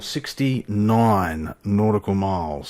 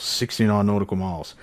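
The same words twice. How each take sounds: First: Each word laid out slowly; sixty-nine nautical miles drawn out word by word; slow deliberate. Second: Said in the usual way. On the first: Shown as a demonstration. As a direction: spell out the distance slowly, savoring it.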